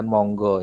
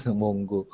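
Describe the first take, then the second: First: Monggo said like the Javanese word monggo; wrong pronunciation of Monggo. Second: Mongo pronounced "mong-go" as in English; English-style Mongo. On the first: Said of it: "Tapi juga bukan Monggo ya". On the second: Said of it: "Karena dialek Inggris". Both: Shown as a demonstration.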